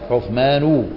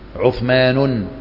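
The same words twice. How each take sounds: First: The word ends without an added n sound. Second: The word ends with an added n sound. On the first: The speaker calls it right. "لا، عثمان ابن عفان" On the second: The speaker calls it wrong. "ما تقول عثمان"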